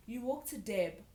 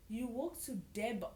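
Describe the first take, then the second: No difference in how they are said.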